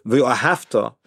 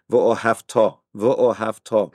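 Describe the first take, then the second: First: "v'ohavta" stressed on "hav", with a lighter final "ta"; contrasting stress placement. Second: "v'ohavta" with weight spread evenly through to the final "ta"; evenly balanced stress. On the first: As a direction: lean on the "hav" in "v'ohavta" and let "ta" drop. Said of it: "So if you say". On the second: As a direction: say "v'ohavta" evenly, giving the last syllable full weight. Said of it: "So notice how I say". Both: Shown as a demonstration.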